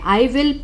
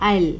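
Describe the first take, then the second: First: The two words are said separately and fully. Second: The two words merge into one syllable. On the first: "otherwise full form है" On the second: "अगर fluent English बोलते हैं तो हम इसको ऐसे pronounce करेंगे"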